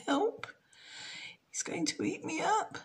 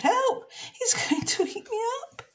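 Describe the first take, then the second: First: High, hushed frightened thoughts; a small girl's panicked inner voice; scared little girl. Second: Much higher, laughing panic; a playful squeal of fear; mock fright. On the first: Acted. Jenny thinks in fright at the crocodile, high and hushed. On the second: Jenny fears the crocodile again, high with laughter. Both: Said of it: "Jenny thought".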